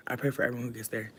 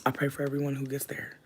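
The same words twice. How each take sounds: First: Hushed fast repeat. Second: Whispered prayer. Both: Real, not acted.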